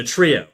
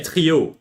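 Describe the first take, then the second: First: Said in the usual way. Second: "trio" said the French way, with a French r; French-Canadian pronunciation. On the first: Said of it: "like the trio". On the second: Shown as a demonstration. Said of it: "if you're ordering in French".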